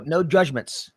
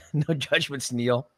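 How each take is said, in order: First: Said in the usual way. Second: Teasing. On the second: Acted. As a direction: rib him gently with a grin. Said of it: "I'm just kidding".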